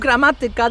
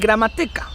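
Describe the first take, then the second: First: The stress falls before the second-to-last syllable. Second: The stress falls on the second-to-last syllable. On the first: "instead of" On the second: "they would say"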